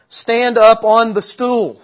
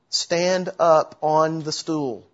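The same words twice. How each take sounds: First: It is said more loudly. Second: It is said at normal volume.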